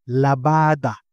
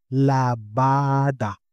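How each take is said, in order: First: "Labada" with every a an open ah; model word. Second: "Labada" slowly, syllable by syllable; slow model word. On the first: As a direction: say "Labada" clearly. (malinaw na "Labada") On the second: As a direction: draw out "Labada" for learners. (mabagal na "Labada") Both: Shown as a demonstration.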